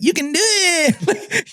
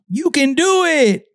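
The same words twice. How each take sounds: First: It is said with a slight put-on accent. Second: It is said in a plain, neutral way. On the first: "You have a little accent on it" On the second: "you don't say you can do it"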